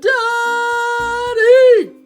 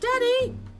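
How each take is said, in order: First: It is yelled as loud as possible. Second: It is said at a normal, quiet level.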